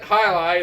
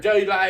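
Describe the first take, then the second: First: The name begins with an H sound. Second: The name begins with a J sound. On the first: The speaker calls it right. "that's how you pronounce it" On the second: The speaker calls it wrong. "It's not Jai"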